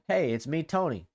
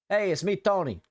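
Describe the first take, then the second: First: It is said in his normal voice. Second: It is said in a goofy voice.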